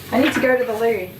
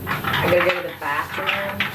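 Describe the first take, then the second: First: A light put-on British accent; lightly voiced British "I need to go to the loo"; mock British accent. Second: A light put-on American accent; lightly voiced American "I gotta go to the bathroom"; mock American accent. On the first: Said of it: "You say loo". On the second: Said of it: "Do you guys say bath-, bathroom?". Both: Shown as a demonstration.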